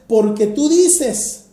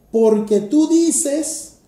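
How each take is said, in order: First: "Porque tú dices" slow, leaning on dices; stress on dices. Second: "Porque tú dices" slow and louder, punching tú; stress on tú. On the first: Preacher quotes the verse, slow with dices stressed. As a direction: land the weight on "dices". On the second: Preacher sets the verse up as a contrast, tú punched slow. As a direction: hit "tú" hard and draw it out. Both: Shown as a demonstration. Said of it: "Un contraste".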